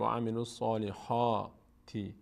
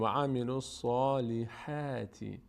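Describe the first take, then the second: First: Full, rounded حا in الصالحاتی; slow wrong take, dark حا in الصالحاتی; wrongly heavy ha. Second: الصالحاتی with full صا but thin front-æ حا; slow الصالحاتی, heavy صا then light حا. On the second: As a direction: mouth spread sideways on the حا of الصالحاتی. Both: Shown as a demonstration.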